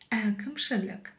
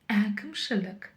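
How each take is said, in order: Both takes have the same delivery.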